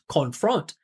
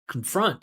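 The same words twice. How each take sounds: First: The first syllable has a full, clear vowel. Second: The first syllable has no clear vowel sound. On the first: The speaker calls it wrong. "he's adding that vowel sound in there" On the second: The speaker calls it right. "You're just gonna go con, con, confront"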